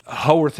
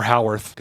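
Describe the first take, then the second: First: Howarth said as HOE-worth; HOE pronunciation. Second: Howarth said as HOW-worth; HOW pronunciation. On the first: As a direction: say Howarth with a long O. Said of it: "I guess I said Howarth". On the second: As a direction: say Howarth with an "ow" as in "cow". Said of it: "or Howarth". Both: Shown as a demonstration.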